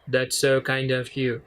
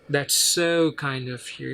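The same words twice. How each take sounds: First: It sounds flat and forced, like a robot. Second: It sounds warm, with extra emphasis and gratitude.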